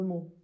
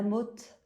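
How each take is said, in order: First: The final t sound is silent. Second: The final t sound is pronounced. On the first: The speaker calls it right. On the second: The speaker calls it wrong.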